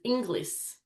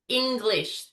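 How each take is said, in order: First: It ends with a plain s sound. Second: It ends with an sh sound. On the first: The speaker calls it wrong. "English was pronounced as Inglis" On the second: The speaker calls it right. "The sh sound was the big emphasis"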